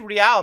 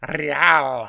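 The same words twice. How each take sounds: First: It has a mild Spanish-style pronunciation. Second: It has an exaggerated Spanish-style pronunciation. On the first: The speaker calls it right. "You can say real" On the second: The speaker calls it wrong. "you don't have to be like real"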